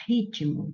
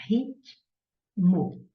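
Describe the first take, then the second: First: Said in the usual way. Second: "ritmo" split as rit... mo, clear pause between; syllable by syllable. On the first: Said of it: "Se eu quero separar". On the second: Shown as a demonstration. Teacher dividing a word for students, "ritmo" said in two syllables. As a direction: sound out "ritmo" in two separate beats. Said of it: "separei em sílabas".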